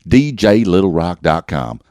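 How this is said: It is said with a Southern twang.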